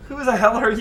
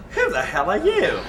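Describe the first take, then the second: First: Higher and louder still, laughing, thrown straight back; retold comeback. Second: Raised, higher mock challenge, with a laugh; retold challenge. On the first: Steve firing the boss's question back at him, louder and laughing. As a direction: bounce it back even bigger, laughing. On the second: The new boss sizing up the stranger, retold as a laughing mock challenge. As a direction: toss the line out half-laughing, higher and louder. Boss confronts him in kitchen.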